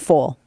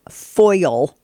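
First: The vowel is flattened, sounding like 'full'. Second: The vowel is a full, careful 'oi' glide. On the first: The speaker is talking casually. "But if I'm just talking, it's full" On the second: The speaker is trying to speak properly. "if I really like go back to my professionalism"

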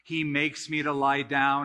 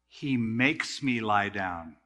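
First: The phrase is read plainly without special emphasis. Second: The phrase is read with forceful emphasis on makes.

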